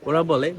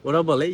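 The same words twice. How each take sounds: Both takes have the same delivery.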